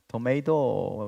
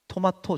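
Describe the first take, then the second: First: It is said the American way, 'to-may-do'. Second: It is said the Korean way, 'to-ma-to'. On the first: The speaker calls it right. "이렇게" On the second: The speaker calls it wrong. "저처럼 하시죠? 그러면 안 된대요"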